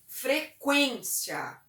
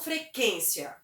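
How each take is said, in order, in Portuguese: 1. O u depois do q é pronunciado. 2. O u depois do q é mudo. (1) "o trema ele traz um certo tremor na voz" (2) "e não"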